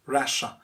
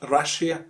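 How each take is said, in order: First: Russia as RUSH-uh; correct pronunciation. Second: Russia as RUSH-ee-uh; mispronunciation. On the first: Teacher giving the right form, correct Russia. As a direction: say "Russia" in two syllables, no ee. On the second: Teacher showing what to avoid, mispronounced Russia. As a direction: say "Russia" wrongly in three syllables. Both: Shown as a demonstration. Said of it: "It's not Russia".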